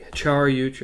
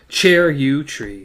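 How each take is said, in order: First: The first syllable sounds like 'char'. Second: The first syllable sounds like 'chair'.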